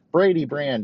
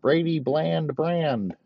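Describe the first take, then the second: First: Laughing. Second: "Brady bland brand" drawn out slowly, higher; slow pun. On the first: Pretend. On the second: Shown as a demonstration. Comic relishing his own pun, slow and higher. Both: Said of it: "Just make it real fucking Brady bland".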